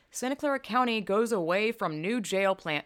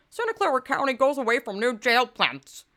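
First: Said in the usual way. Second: Higher, louder, exaggerated put-on reading; mock-dramatic voice, pitched up; hammed-up headline mockery. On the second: Shown as a demonstration. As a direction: ridicule the headline with an over-the-top delivery.

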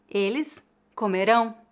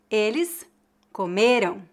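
First: Comerão stressed on the last syllable "RÃO"; comerão as co-me-RÃO, careful model; final stress. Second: Comeram stressed on "ME", weak nasal ending; penultimate stress. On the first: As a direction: land firmly on the nasal ending of comerão. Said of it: "é a sílaba tônica". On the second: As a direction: hit the ME in comeram, let "ram" drop. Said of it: "A única diferença de pronúncia". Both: Shown as a demonstration.

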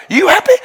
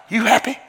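First: "You happy?" much higher, pushed up on "happy"; a high insistent "You happy?" to the wife; emphatic question. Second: Soft rising "You happy?"; a soft "You happy?" to the wife; soft question. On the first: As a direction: ask it again, insisting. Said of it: "I said". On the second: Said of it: "I said to the wife". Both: Retold or imitated.

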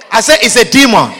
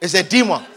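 First: I say it's a demon with say hit; stress on say. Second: Softer, lower take of It's a demon; murmured before the shout; quiet. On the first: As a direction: lean on say, half laughing. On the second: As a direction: drop low and soft on It's a demon. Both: Shown as a demonstration.

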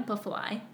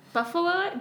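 First: Said in the usual way. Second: Excited. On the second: Real, not acted.

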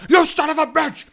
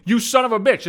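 First: Shrieked much higher, full mock scream; imitated shriek. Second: Half-hearted retelling of the boss's scream; mild mock scream. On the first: Boss screaming at the prankster, high mock shriek. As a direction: screech it like a furious boss. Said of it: "at the top of her fucking lungs". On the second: Boss yelling down the phone, lightly mock-screamed. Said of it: "She screamed".

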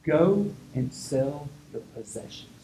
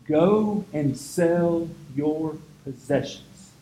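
First: "Go and sell your possessions" slowed, each word weighted; slowed solemn stress; slow emphatic command. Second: "Go and sell your possessions" stretched very slow, word by word; drawn-out solemn emphasis; very slow stressed repeat. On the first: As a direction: lay down the word deliberately. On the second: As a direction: drive it home slowly. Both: Shown as a demonstration. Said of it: "This is the word".

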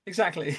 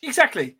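First: Said in the usual way. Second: Emphatic. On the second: Real, not acted. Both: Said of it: "emphatic repeat".

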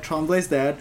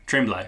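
First: Tremblay's said as trahm-BLAY, French style; French pronunciation. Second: Tremblay said as TREM-blay, English style; wrong pronunciation. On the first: Shown as a demonstration. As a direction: say Tremblay's with a nasal French vowel. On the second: Retold or imitated. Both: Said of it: "it's pronounced Tremblay".

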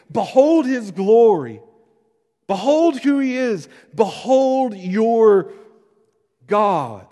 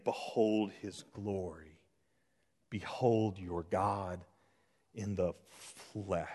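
First: Loud, high proclamation, drawn out; exultant declaration. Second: Soft, low and slow proclamation; hushed reverent cry. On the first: Preacher declaring John's message to all of us, loud and exultant. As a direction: proclaim it slowly at full voice. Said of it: "he's declared to all of us". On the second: Preacher echoing John's cry to behold, hushed and slow. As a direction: drop to a hush, pausing between phrases. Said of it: "cried again and again". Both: Acted.

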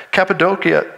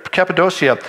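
First: Cappadocia said with a k, "cap-a-DOH-kee-a"; hard-k pronunciation. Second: Cappadocia said with a sh, "cap-a-DOH-shee-a"; soft-sh pronunciation. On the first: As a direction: say Cappadocia with a hard k before the ending. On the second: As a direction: soften the ending of Cappadocia to a sh sound. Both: Real, not acted. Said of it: "harder and harder to pronounce".

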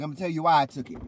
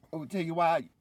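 First: Louder, higher hammed-up threat; mock wrestling promo. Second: Higher, dramatic delivery of a wrestler's threat; mock dramatic villain line. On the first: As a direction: belt it out like a wrestling heel. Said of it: "She's like". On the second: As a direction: ham it up like a wrestling heel promo. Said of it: "She was like".

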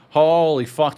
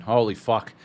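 First: Louder, amazed holy fuck; excited holy fuck. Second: Said in the usual way. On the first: Real, not acted.

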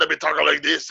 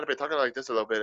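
First: Louder, higher, rougher Scottish burr; gravelly Scottish accent. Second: Lighter, quick Irish lilt, pitched up; Irish accent. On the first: Showing the Irish turning tipsy, gravelly Scottish accent. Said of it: "like, a little more gravelly". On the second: Showing the tipsy slide's starting point, Irish accent. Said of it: "my Irish started turning into Scottish". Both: Shown as a demonstration.

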